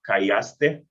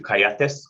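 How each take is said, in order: First: The word ends with an -aste sound. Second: The word ends with an -ates sound. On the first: This is the standard form. "instead of saying callaste" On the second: This is the regional New Mexican form. "we'll switch it to callates"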